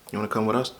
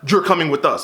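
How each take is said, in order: First: It is said in a sweet, gentle tone. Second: It is said in a stern, commanding tone.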